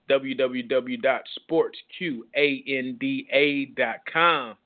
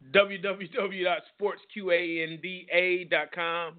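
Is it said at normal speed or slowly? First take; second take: slowly; normal speed. First: It is said slowly. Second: It is said at normal speed.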